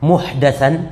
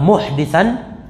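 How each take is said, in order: First: The vowel after the d is 'a'. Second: The vowel after the d is 'i'. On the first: It refers to an innovated matter in religion. "Kalau dibaca bi fathiha dengan dalnya di fathah" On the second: It refers to a criminal or wrongdoer. "mananya residivis bisa atau aljani"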